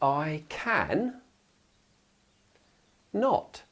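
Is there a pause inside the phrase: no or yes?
yes. A clear gap separates can from not. The speaker calls it right. "when you put that gap in between the not"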